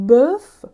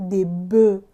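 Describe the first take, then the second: First: Bœuf spoken loud with a crisp final F; bœuf, make the F at the end heard; final F sounded. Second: Des bœufs said "de bø", with no F and no S; bœufs, leave off both the F and the S; silent F and S. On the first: (bœuf با اف پایانی واضح) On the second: (des bœufs بدون اف و اس، «دِ بو») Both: Shown as a demonstration.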